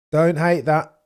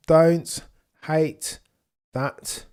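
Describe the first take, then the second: First: Said in the usual way. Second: "Don't" "hate" "that" each set apart by a pause, every word hit; spaced-out emphasis. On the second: Shown as a demonstration. Streamer repeats it to chat word by word for emphasis.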